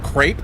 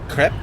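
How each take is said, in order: First: It is said with an American pronunciation. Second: It is said with a non-American pronunciation. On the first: "also known as crepe if you are American" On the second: "The food name, crepe"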